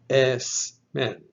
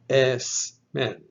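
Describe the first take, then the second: First: The consonant before m is a voiceless S. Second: The consonant before m is a voiceless S.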